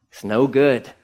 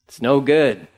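No difference in how they are said.

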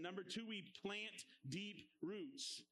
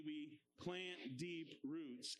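First: Said in the usual way. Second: Slowed, lower, led chant; slow call-and-response. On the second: Shown as a demonstration. Teacher leads the class repeating the line, slow chant. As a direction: lead the kids through it slowly. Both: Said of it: "Say that with me".

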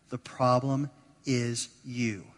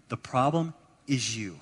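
First: "The problem is you" said slowly, with the weight on "problem"; slow, weighty repeat. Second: Said in the usual way. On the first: Shown as a demonstration. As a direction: lean slowly on "problem" and let each word land.

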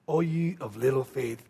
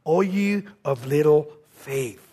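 First: Hushed echo. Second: Slow, soft rebuke of little faith; a gentle, sorrowful chiding. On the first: Shown as a demonstration. Preacher echoes the rebuke to the congregation, hushed. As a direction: repeat it barely above a breath. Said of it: "preacher repeats it softer". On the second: Acted. Jesus gently chides his frightened disciples, softly. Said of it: "he said this to them".

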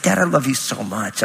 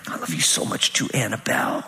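First: Said in the usual way. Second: Whispered, much lower and softer; whispering back to his daughter on the couch; tender whisper. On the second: Retold or imitated. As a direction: hush it lovingly to a little girl. Dad answers daughter tenderly.

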